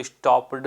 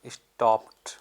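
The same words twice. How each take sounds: First: "स्टॉप्ड" ending on a voiced d sound, the wrong way; "स्टॉप्ड" said as "stop-d" with a hard d; wrong ending shown. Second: "स्टॉप्ड" ending on a crisp t sound, "stopt"; correct ending shown. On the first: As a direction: demonstrate "स्टॉप्ड" with a final "d" as the mistake. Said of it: "इसको स्टॉप्ड नहीं पढ़ेंगे". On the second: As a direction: model "स्टॉप्ड" with the final d turned into t. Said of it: "इसको पढ़ते हैं". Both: Shown as a demonstration.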